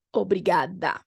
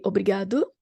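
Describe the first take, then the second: First: "Obrigada." ending in an a sound; "Obrigada." with final a; feminine ending. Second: "Obrigado." ending in an o sound; "Obrigado." with final o; masculine ending. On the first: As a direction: end "Obrigada." on a. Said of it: "the ladies are going to say". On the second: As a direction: end "Obrigado." on o. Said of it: "if you are a man, you're going to say". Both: Shown as a demonstration.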